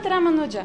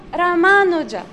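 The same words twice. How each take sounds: First: "Ramanuja" with a short second syllable; wrong short syllable. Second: "Ramanuja" with a long, stressed MAA; long second syllable. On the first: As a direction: clip the ma in "Ramanuja". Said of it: "It's not Ramanuja". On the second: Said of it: "you make the second syllable". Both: Shown as a demonstration.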